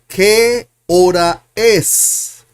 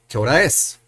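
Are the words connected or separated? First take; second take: separated; connected. First: Each word is said separately, one by one. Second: The words run together like one word. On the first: The speaker calls it wrong. "But we never talk like that" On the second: The speaker calls it right. "It's not fast, it's connected"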